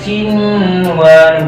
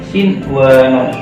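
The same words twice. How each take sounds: First: The n is merged into the following w. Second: The n is pronounced clearly before the w. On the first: The speaker calls it wrong. "Ini bacanya bukan" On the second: The speaker calls it right. "tapi sinwanun. Ini jelas"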